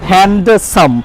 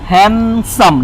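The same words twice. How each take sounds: First: The d sound in the middle is pronounced. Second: The d sound in the middle is silent. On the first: The speaker calls it wrong. "Not" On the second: The speaker calls it right. "ডিটা চলে গেল"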